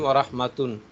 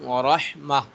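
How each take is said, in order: First: The last word ends with a full 'tun' syllable. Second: The last word ends with a soft 'h' sound. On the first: The reader keeps going without stopping. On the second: The reader stops on this word.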